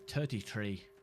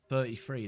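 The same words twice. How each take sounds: First: It is said in an Irish accent. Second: It is said in a standard accent.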